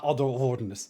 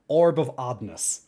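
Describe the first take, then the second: First: The R sound is in the last word. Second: The R sound is in the first word. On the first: The speaker calls it wrong. "Not Odd of Ordness" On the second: The speaker calls it right. "Orb of Oddness, all right?"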